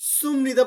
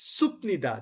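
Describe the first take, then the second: First: The middle consonant is an m sound. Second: The middle consonant is a p sound. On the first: The speaker calls it right. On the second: The speaker calls it wrong.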